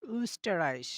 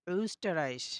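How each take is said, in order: First: "Österreich" with rounded-lip ö and German ch; German ö word. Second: "Österreich" again, same rounded ö; German ö word repeated. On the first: Teacher modelling "Österreich" for students. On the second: Teacher repeating "Österreich" so students catch the ö. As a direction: echo "Österreich" with lips rounded. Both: Shown as a demonstration. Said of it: "তাহলে দেখবেন সঠিক উচ্চারণটা হবে".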